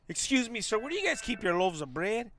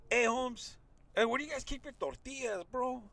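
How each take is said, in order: First: Mock-polite, proper shopper asking a stranger; overly polite customer. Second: Higher, softer, easy street-slang ask. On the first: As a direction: play it stiff and courteous, the wrong way. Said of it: "You just can't walk up to him and be like". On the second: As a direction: talk to him like one of the homies. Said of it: "So you gotta do this". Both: Shown as a demonstration.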